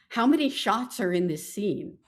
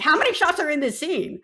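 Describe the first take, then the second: First: It is asked in a calm, plain way. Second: It is asked in an irritated, impatient way.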